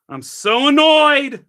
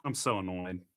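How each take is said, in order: First: High, loud, slow drawn-out wail; annoyed shout. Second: Lower, softer annoyed mutter. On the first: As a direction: stretch it out in a loud exasperated cry. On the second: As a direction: grumble it under your breath. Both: Real, not acted.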